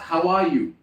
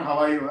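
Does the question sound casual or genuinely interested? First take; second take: interested; casual. First: It sounds warm and genuinely curious. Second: It sounds quick, automatic and offhand. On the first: The asker really wants to hear the answer. The speaker calls it right. "Be interested to actually know the answer" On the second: The asker is only making routine small talk. The speaker calls it wrong. "Not how are you? I am good"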